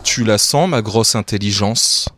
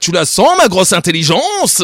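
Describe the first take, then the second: First: The line is read in a flat voice. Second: The line is read with lively, expressive intonation.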